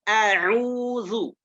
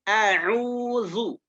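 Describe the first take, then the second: The two takes are said the same way.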